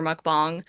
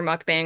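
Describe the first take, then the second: First: "mukbang" with second vowel as in "father"; Korean-style pronunciation. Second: "mukbang" with second vowel as in "bang"; Westernized pronunciation. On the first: Director reports how actors said it, "mukbang" as "bahng". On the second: Director reports how actors said it, "mukbang" as in "bang". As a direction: say "mukbang" with the "a" of "hang". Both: Shown as a demonstration. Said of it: "actors were saying either mukbang or mukbang".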